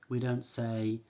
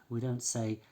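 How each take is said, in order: The two takes are said the same way.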